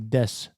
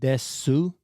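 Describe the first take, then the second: First: The final u vowel is silent. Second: The final u vowel is pronounced. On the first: The speaker calls it right. "the u is actually silent, so it's supposed to be des" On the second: The speaker calls it wrong. "when you read it is desu"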